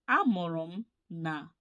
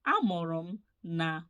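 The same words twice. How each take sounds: The two takes are said the same way.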